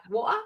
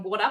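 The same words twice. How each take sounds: First: "water" with the middle T dropped. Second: "water" with the T kept; pronounced T. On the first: American asking Brit about "water", T swallowed. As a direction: say "water" with a glottal stop for T. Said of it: "but, like, water?". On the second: American showing the rejected way, "water" with its consonant. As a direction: say "water" with a sounded middle consonant. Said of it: "Or not even water". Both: Shown as a demonstration.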